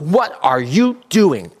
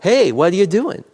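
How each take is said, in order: First: It is said in a serious, accusing tone. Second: It is said in a light, playful tone.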